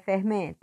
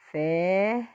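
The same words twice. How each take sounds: First: Said in the usual way. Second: "fermento" broken up, FER then a very long MEN; slow split "fermento" with sustained stress on MEN; stressed syllable. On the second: Shown as a demonstration. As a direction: sound out "fermento", holding MEN at length. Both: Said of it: "você vai botar só a sílaba forte".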